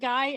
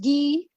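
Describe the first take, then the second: First: It is said with the English vowel. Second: It is said with the French vowel. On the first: The speaker calls it wrong. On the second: The speaker calls it right.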